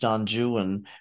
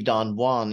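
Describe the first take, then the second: First: Juan is two syllables, like 'joo-un'. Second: Juan is one syllable, like 'hwahn'. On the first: This is the traditional British reading for the poem. "Byron's poem is pronounced Don Juan" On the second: This is the original Spanish name. "It would normally be Don Juan if you were in Spanish"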